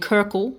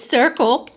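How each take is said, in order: First: The word begins with a K sound. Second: The word begins with an S sound. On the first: The speaker calls it wrong. "I was saying Kirkle" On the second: The speaker calls it right. "but it's Circle"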